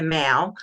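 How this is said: The final L sound is dropped. This is how people locally say it. "a lot of people here say the Mao"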